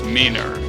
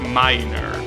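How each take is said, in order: First: The first vowel is a short 'i'. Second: The first vowel sounds like 'eye'. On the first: The speaker calls it wrong. "otherwise I will pronounce it as minor" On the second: The speaker calls it right. "you're supposed to pronounce it as minor"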